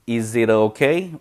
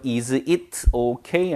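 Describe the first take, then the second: First: The words run smoothly together, linked. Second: The words are said separately, not linked. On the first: The speaker calls it right. "굉장히 부드럽게 연음됩니다" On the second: The speaker calls it wrong. "아니고요"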